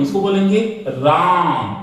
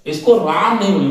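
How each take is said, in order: First: राम with its long आ held far longer; राम sung out with a prolonged आ; drawn-out vowel. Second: Said in the usual way. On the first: Shown as a demonstration. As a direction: stretch the आ in राम like a call.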